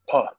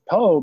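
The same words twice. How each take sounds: First: The name ends in a breathy oh vowel. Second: The name ends in a plain oh vowel. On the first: "So there was a lot of breath on the end" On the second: "in English, we can pronounce it differently. We can pronounce it po"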